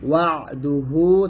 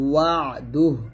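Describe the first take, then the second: First: The word ends with a final u vowel. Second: The word ends on a bare h sound. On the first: Reading continues without stopping. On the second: The reader stops at this word.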